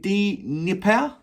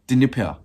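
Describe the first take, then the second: First: The D is sounded fully, almost separately. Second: The D is sounded lightly, blended in. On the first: "Is it D Nipper?" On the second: "not pronouncing the D as much? Dnipro, like that"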